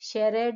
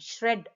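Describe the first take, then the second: First: A vowel separates the sh and r sounds. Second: The sh and r sounds join directly. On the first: The speaker calls it wrong. "షెరెడ్ అనట్లేదు మనం" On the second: The speaker calls it right. "ష్రెడ్ అంటున్నాం"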